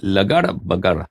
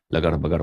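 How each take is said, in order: First: لگڑ بگڑ drawn out very slowly, syllable by syllable; slow careful naming. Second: Said in the usual way. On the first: Shown as a demonstration. Teacher naming the hyena in Urdu, slowly spelled out. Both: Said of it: "ہائینہ اس کو کیا بولتے ہیں؟".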